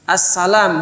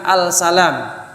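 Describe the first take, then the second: First: The L merges into a doubled S sound. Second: The L sound of the article is heard. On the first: The speaker calls it right. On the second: The speaker calls it wrong. "bukan al-salam"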